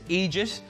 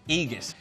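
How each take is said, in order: First: The middle consonant is a soft J sound. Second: The middle consonant is a hard G sound.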